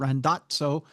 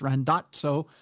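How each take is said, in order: First: The name has an Italian-sounding pronunciation. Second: The same.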